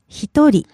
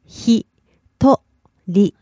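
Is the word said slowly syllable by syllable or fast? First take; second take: fast; syllable by syllable. First: It is said quickly as one word. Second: It is said slowly, syllable by syllable.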